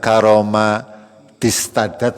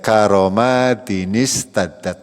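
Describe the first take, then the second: First: No 'nin' sound links the two words. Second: An added 'nin' sound links the two words. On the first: The speaker calls it wrong. "Bukan karoma distadat, bukan" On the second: The speaker calls it right. "membacanya seperti itu nggih"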